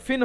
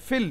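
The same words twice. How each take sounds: First: "ফিন" with a clear final n; unmerged n. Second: "ফিল" with l replacing the n; merged l. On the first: Teacher saying what it ought to be, unmerged n. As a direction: end "ফিন" on a plain n. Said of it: "ফিন হওয়া উচিত". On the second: Teacher correcting it to what occurs here, merged l. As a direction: end "ফিল" on l, not n. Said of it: "কিন্তু এখানে ফিল". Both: Shown as a demonstration.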